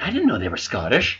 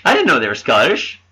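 First: Quiet surprise. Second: Said in the usual way. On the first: Retold or imitated. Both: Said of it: "a bunch of guys like".

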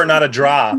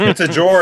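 First: Said in the usual way. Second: R-dropped draw, said like dror; Boston accent. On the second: Shown as a demonstration.

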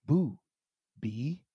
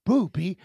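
First: Two words set well apart; slow, separated syllables, pitch dropping on the second; slow teaching. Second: Two words run together quickly; brisk joined-up syllables, first one raised; said fast. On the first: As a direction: spell it out slowly for a toddler, long pause between. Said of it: "So what you say is". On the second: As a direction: demonstrate it quick, as one word. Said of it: "make sure you say it fast". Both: Retold or imitated.

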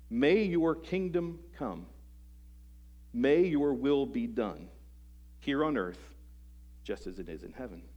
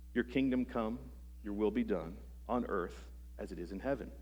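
First: Slow, weighty "May your kingdom come", leaning on "May"; deliberate prayer, each phrase given its weight; with emphasis. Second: Rote, even-paced recital of "your kingdom come, your will be done"; recited by habit without weight on any word; sing-song recital. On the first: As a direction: stress "May" and pause between each phrase. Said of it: "Jesus gave the words 'cause there's emphasis". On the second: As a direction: rattle off "your will be done" as a familiar rhyme. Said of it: "it almost becomes sing-song to us". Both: Shown as a demonstration.

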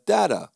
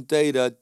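First: Data with a short a, "datta"; mispronounced name. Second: Said in the usual way. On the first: Shown as a demonstration. Speaker showing the doctor's error, Data said as "datta". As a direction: say "Data" as DAT-uh, higher. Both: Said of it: "she kept calling Data".

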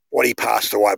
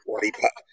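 First: Said in the usual way. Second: Hushed, breath-only half word; whisper. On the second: Real, not acted. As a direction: drop to a whisper on a touchy subject. Speaking delicately of his death.

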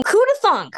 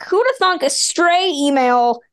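First: "Who'da thunk?" tossed up high in delighted wonder; amazed exclamation. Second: Said in the usual way. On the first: Real, not acted. Host marvelling to her departing co-host, delighted wonder.

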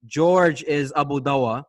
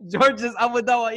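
First: Said in the usual way. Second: Pitched way up, teasing put-on voice; mock high voice. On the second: Co-host teasing George's nickname, in a high mock voice. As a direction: squeak the name out to tease George.

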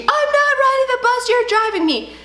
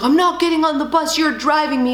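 First: Put-on screaming kid. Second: Lightly voiced defiant little boy; a hint of a kid refusing, stubborn; stubborn son. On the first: Son yelling across the street, high mock scream. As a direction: shriek it like a boy running off. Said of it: "He's screaming and crying". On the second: Son refusing the bus, mild stubborn whine. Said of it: "he's like".

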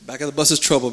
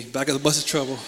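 First: Said in the usual way. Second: Said again through a laugh. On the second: Real, not acted. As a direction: chuckle the line as you repeat it. Repeats the joke laughing.

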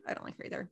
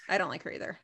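First: Softer whispered I don't like her either; muttered whispered echo; whispered repeat. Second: Said in the usual way. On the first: Real, not acted. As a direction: whisper it again to yourself. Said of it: "repeated whispered". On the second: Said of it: "repeats softer".

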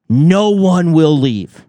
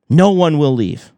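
First: Slow, stressed "No one will leave"; every word of "No one will leave" drawn out slowly; slow emphatic. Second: Said in the usual way. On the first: Shown as a demonstration. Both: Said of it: "repeated for emphasis".

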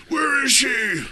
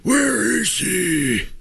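First: High gravelly Batman growl. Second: Slow drawn-out Batman growl. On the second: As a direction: drag it out like Batman. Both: Pretend. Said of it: "That's my Batman impression".

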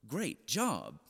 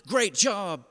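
First: Lower, softer incredulous repeat; unimpressed parent's muted echo; disbelieving echo. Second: Higher, louder cheery praise; imitating a coach's enthusiastic cheer; encouraging coach. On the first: Retold or imitated. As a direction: echo the praise as if you can't believe it. Disbelieving parent echoes coach's praise. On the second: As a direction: praise a player like an upbeat coach. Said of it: "he was an incredible encourager".

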